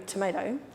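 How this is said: It is said in an American accent.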